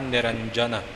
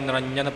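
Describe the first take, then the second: First: The j sound is fully articulated. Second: The j sound is weakly articulated. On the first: The speaker calls it right. "ਪੂਰਾ ਉਚਾਰਨ ਕਰਨਾ ਹੈ ਨਿਰੰਜਨ" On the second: The speaker calls it wrong. "ਆਮ ਤੌਰ 'ਤੇ ਪੜ੍ਹਨ ਵਾਲੇ ਨਿਰੰਜਨ ਪੜ੍ਹ ਜਾਂਦੇ ਨੇ"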